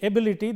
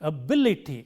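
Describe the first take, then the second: First: The stress is on the first syllable. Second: The stress is on the second syllable. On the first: The speaker calls it wrong. "When you say ability, the stress is on the first syllable" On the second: The speaker calls it right. "but it is ability"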